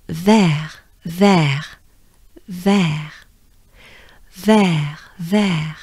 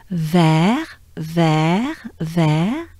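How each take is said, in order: First: Each "vert" ends with falling pitch; finished falling tune. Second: Each "vert" ends with rising pitch; unfinished rising tune. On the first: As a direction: say "vert" as a complete word, tune dropping. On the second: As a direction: leave "vert" hanging upward, more to come. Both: Shown as a demonstration. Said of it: "because it's not over".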